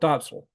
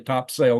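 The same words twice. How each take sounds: First: It is pronounced the way locals say it. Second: It is pronounced the way locals do not. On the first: The speaker calls it right. "they call it Topsail" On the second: The speaker calls it wrong. "They didn't say Topsail"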